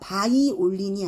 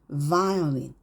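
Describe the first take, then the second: First: The word begins with a b sound. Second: The word begins with a v sound. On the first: The speaker calls it wrong. "바이올린이 아니라" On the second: The speaker calls it right. "violin, va, va 이렇게요"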